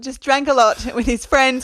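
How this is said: It is said in the speaker's natural voice.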